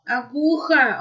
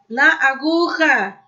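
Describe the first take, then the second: First: "aguja" said alone, the stress on -gu-, dropping at the end. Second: "aguja" with the stress on -gu-, "La" stretched and linked. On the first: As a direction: isolate "aguja" and land on -gu-. ("aguja" sozinha, com a força no "gu") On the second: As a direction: link "La" into "aguja" and lean on the -gu- syllable. ("La aguja" com o "la" alongado e a força no "gu") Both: Shown as a demonstration. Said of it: "O som forte não está no A, tá no aguja".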